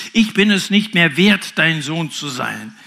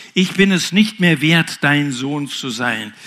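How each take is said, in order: No difference in how they are said.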